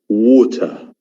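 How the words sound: It has a British accent with a clear t. "It is in British English, it's water"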